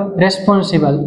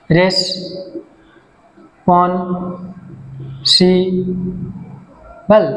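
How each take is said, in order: First: Said in the usual way. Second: responsible split into four slow syllables. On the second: Shown as a demonstration. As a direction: say responsible one syllable at a time, long gaps between. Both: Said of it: "চারটা syllable আছে".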